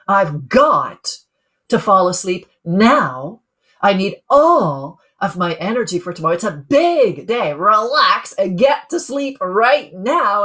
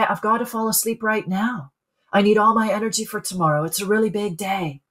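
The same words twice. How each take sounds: First: Firm, demanding self-orders with "got" held and pressed; a hint of drill sergeant cracking the whip. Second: Calm tone. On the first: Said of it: "I sound like the Army drill sergeant cracking the whip, demanding it". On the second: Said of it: "it might have been calm in my tone". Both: Shown as a demonstration.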